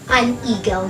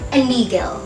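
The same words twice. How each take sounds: First: The two words are said separately. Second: The two words run together as one. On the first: The speaker calls it wrong. "Not an eagle" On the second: The speaker calls it right. "but an eagle"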